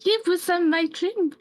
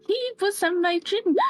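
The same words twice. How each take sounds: First: High frightened insistence; frightened Gerta clinging to her nightmare. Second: High, breaking into a cry; the repeat cracks into crying; near tears. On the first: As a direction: Gerta pitched much higher, scared of the man. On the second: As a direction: Gerta crying as she repeats the dream. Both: Acted. Terrified after nightmare.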